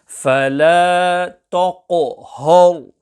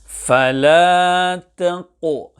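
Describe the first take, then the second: First: The Ta and Ha sound heavy, full-mouthed. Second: The Ta and Ha sound light, not full-mouthed. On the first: The speaker calls it wrong. "both the Ta and the Ha are pronounced full mouth" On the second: The speaker calls it right. "The correct pronunciation is"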